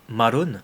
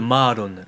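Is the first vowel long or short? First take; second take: short; long. First: The first vowel is short. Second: The first vowel is drawn out long. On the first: It names the ex-girlfriend, not the niece. The speaker calls it wrong. "avec un seul R" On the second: It names the niece. The speaker calls it right. "il y a vraiment une prolongation sur le A"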